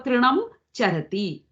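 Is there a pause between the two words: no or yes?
yes. There is a break between the two words. The speaker calls it wrong. "You don't go Trinam Charati. Then there is a break between the two words"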